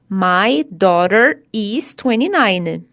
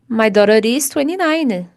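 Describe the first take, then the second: First: Daughter and is are said as separate words. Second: Daughter and is run together into one. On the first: The speaker calls it wrong. "Quando a gente separa, fica mais difícil. Ficaria assim, ó" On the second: The speaker calls it right. "Quando nós juntamos, fica mais fácil de falar"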